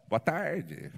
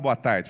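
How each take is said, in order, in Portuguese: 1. A voz falha como a voz de um adolescente na muda de voz. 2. A voz está firme e estável.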